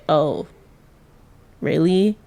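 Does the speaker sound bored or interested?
bored. The tone is flat and unimpressed. The listener is indifferent to the good news. "you do something for yourself that you think is something good, and they're like"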